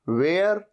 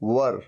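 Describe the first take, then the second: First: The vowel is a long 'air' sound. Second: The vowel is a short 'uh' sound. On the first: The speaker calls it wrong. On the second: The speaker calls it right.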